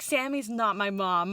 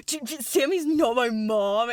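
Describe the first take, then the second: First: Said in the usual way. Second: Stammering, hammed-up defensive outburst; exaggerated indignant protest. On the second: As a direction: sputter it in mock outrage. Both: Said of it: "he doesn't say it like that".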